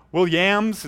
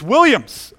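First: Williams said as "Will-YAMS"; mispronounced surname. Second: Williams said as "WILL-yums"; correct pronunciation. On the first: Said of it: "people mispronounce it all the time". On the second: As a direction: punch the first syllable of Williams, "WILL-yums". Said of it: "It's not Williams, it's Williams". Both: Shown as a demonstration.

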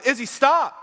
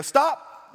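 First: Full alarmed yell, much higher and louder still; loudest yell. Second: Sudden sharp yell, much higher and louder; yelled stop. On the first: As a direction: bark the name and stop as the curb hits. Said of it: "louder and louder as you approach that curb". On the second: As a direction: shout it to stop the car in time. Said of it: "I raised my voice and said, 'Stop,' again, louder and louder". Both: Retold or imitated.

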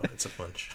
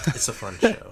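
First: Soft unvoiced whisper of the catchphrase. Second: Said in the usual way. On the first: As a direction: whisper it as an echo. Whispered repeat.

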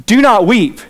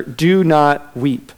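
First: Louder, higher do not weep, like a rude intrusion; a stranger butting into a funeral; interrupting a funeral, blunt and loud; abrupt stranger. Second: Gentle command. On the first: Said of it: "this guy walks up, interrupts, and says". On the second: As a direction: comfort the grieving mother, slow and gentle. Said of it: "he says to her". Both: Retold or imitated.

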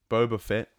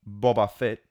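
First: BOBA said "BOH-buh" Fett, long o; Fennec Shand's pronunciation. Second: BOBA said "BAH-bah" Fett, short open first vowel; alternative pronunciations. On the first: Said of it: "as Fennec Shand calls him". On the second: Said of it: "however you wanna pronounce it". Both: Shown as a demonstration.

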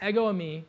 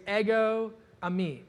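First: Said in the usual way. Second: "ego eimi" said slowly, each word stressed; first careful take of "ego eimi"; slow Greek phrase. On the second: Shown as a demonstration. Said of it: "is the Greek word".

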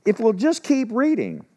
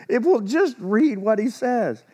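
First: Dry, pointed jab leaning on just; sarcastic nudge, just stressed and falling; mock-patient reminder, If we'll just keep reading. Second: Slow, drawn-out sarcastic jab after a laugh; teasing the flock: just read what he says; sarcastic, slower. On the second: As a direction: spell it out slowly with a sarcastic edge. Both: Real, not acted. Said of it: "I'm not gonna be sarcastic".

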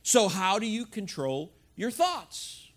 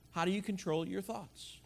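First: Said in the usual way. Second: The same question, much softer; softer repeat. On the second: Real, not acted. Pastor repeats the question to the congregation, much softer. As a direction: let it drop to near a hush.

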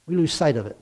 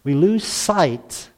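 First: Said in the usual way. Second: Stretched out, very slow; slow emphasis. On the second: Real, not acted. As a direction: draw out lose sight.

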